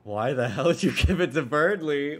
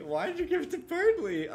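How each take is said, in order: First: Loud, rough, annoyed demand; angry tomboy voice. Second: Put-on high timid girl voice. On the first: Acted. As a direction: snap it out like a tough bully. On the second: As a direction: ask it like a shy girl. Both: Reads two characters' versions of line.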